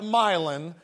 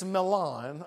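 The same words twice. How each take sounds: First: It is said with the local West Tennessee pronunciation. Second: It is said with the Italian pronunciation. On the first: The speaker calls it wrong. "in West Tennessee we call that Milan" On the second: The speaker calls it right. "but it's Milan, okay? That's the right way to say it"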